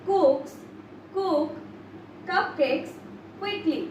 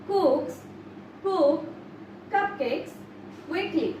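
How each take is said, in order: The two takes are said the same way.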